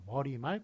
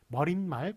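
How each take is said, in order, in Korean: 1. '말' 앞에 'ㄴ' 소리가 덧나지 않습니다. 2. '말' 앞에 'ㄴ' 소리가 덧납니다. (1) "이렇게 붙여줘야 맞다고" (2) "이거는 잘못된 발음입니다"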